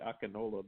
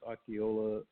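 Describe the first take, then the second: First: The name is said with an N sound. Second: The name is said without an N sound. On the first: The speaker calls it wrong. "looks like it should be Akinola" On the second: The speaker calls it right. "but it's Akiola"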